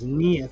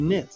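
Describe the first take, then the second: First: The word has a long ee vowel. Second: The word has a short i vowel. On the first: This is the modern-day pronunciation. The speaker calls it wrong. "Pronounced modern day as Neath" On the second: This is the original pronunciation. The speaker calls it right. "but it's actually knit"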